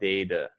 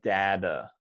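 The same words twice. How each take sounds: First: The first vowel sounds like the letter A. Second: The first vowel is not the letter A sound. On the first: "is a long A sound. It sounds like the letter A" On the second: "The other one would be data"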